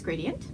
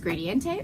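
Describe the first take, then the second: First: The word ends without an extra vowel sound. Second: An extra vowel is sounded at the end.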